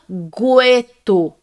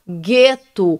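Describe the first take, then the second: First: A U sound is heard after the G. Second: No U sound is heard after the G. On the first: The speaker calls it wrong. "Você não fala gueto" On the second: The speaker calls it right. "você fala gueto"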